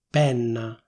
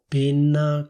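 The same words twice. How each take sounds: First: The stressed E vowel is open. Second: The stressed E vowel is closed. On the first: The speaker calls it right. "con la E aperta" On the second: The speaker calls it wrong. "con la E chiusa"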